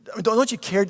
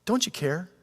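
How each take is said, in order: First: Insistent hurt plea. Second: Hurt question. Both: Acted. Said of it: "it goes a little deeper".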